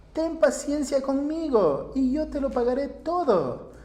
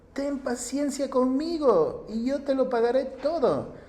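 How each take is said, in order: Both takes have the same delivery.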